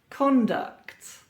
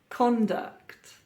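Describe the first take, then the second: The two takes are said the same way.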